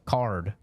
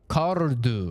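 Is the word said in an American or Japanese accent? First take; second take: American; Japanese. First: It is said in a plain American accent. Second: It is said in a Japanese accent. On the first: The listeners do not understand it. "whenever I said things normally, they did not understand" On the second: The listeners understand it. "When I said it in a stereotypical Japanese accent"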